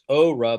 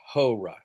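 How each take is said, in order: First: The word begins directly with a vowel. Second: The word begins with a breathy h sound.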